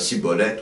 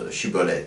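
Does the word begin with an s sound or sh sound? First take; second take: s; sh. First: The word begins with a plain s sound. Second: The word begins with a sh sound. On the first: The speaker belongs to the enemy group. The speaker calls it wrong. "les méchants, ils ne savent pas prononcer, ils prononcent" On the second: The speaker belongs to the trusted group. The speaker calls it right. "les gentils prononcent"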